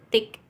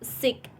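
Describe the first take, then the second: First: The word begins with a hard t sound. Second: The word begins with a hissing s sound. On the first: This is how Indonesian speakers say it. "orang Indonesia cenderung dibaca dengan huruf T" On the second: This is how Japanese speakers say it. "Orang Jepang biasa sebutnya dengan s"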